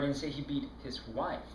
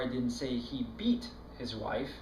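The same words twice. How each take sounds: First: The word 'wife' carries the main stress. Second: The word 'beat' carries the main stress. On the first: It was someone other than his wife. "No, it was his girlfriend he beat" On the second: He did something milder than beating. "He slapped her around a little, but he sure didn't beat her"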